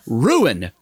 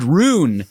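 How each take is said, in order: First: The word is said in two syllables, roo-in. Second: The word is squeezed into one syllable, like rune. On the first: The speaker calls it right. "But ruin, R-U-I-N" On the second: The speaker calls it wrong. "You said rune"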